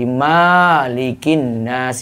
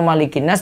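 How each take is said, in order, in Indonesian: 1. Vokal setelah huruf m panjang. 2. Vokal setelah huruf m pendek.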